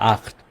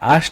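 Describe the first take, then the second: First: The middle consonant is a throaty ch sound. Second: The middle consonant is a sh sound. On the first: The speaker calls it right. "এটা হবে আট" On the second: The speaker calls it wrong. "সেটা আষ্ট হবে না"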